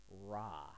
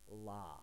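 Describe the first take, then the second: First: The consonant is a strong English-like R. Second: The consonant is a clear L sound. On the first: "if you pronounce this with a strong R sound" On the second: "If you pronounce it with an L sound"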